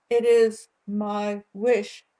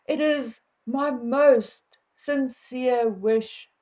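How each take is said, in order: First: Said in the usual way. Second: Slow, overly formal sincere wish; mock formal phrasing. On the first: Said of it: "we say". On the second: Shown as a demonstration. South African vlogger mocking stiff royal wording, slow and formal. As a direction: lay the formality on thick, slowly. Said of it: "we do not say things like".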